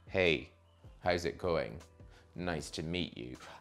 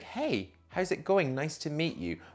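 First: It is said in a sultry, seductive way. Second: It is said in a warm, friendly way.

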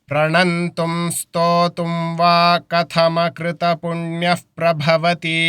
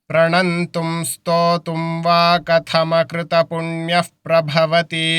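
The two takes are said the same way.

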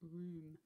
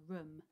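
First: The vowel is long, as in moon. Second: The vowel is short, as in book. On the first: "instead of" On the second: "the double O grapheme making an uh sound"

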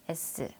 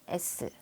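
First: The mouth barely moves, Korean-style. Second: The same.

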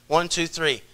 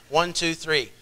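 Both takes have the same delivery.

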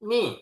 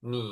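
First: The pitch falls sharply from high to low. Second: The pitch dips low, then rises again. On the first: "เสียงที่สี่" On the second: "เสียงที่สาม"

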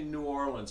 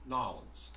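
First: The name is said fully, as New Orleans. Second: The name is squeezed together, sounding like Narlands. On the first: The speaker calls it wrong. "You don't say New Orleans" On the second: The speaker calls it right. "it's Narlands. Narlands, like that"

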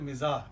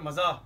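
First: The first vowel is 'i'. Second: The first vowel is 'a'. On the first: The speaker calls it right. "सही तलफ़ुज़ है मिजाह, मीम के नीचे ज़ेर है" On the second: The speaker calls it wrong. "लेकिन अक्सर मजाह ... ये गलत है"

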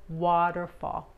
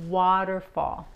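Both takes have the same delivery.

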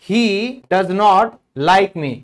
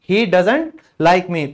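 First: Does not is said as two full words. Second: Does not is contracted into one word, doesn't. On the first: "डज नॉट" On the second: "बोलते वक्त डजंट भी बोल सकते हो"

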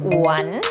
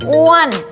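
First: The pitch dips low then rises. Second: The pitch rises high then falls. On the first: "อ้วนไม้จัตวาอ้วน" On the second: "อ้วนไม้โทอ้วน"

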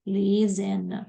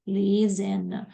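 First: The middle consonant is a voiced z sound. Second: The same.

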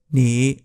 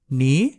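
First: The syllable has a low dipping tone. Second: The syllable has a rising tone.

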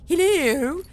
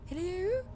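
First: It is said in an exaggerated posh English voice. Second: It is said in the speaker's natural voice.

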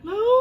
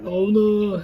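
First: The name is called in a high voice. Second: The name is called in a low voice. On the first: This is put on because babies like high voices. "목소리가 점점 하이톤이 되네" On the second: This is the speaker's usual natural voice. "이모 원래 저음이야. 원래 라온아 이렇게 하는데"

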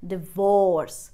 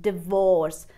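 No difference in how they are said.

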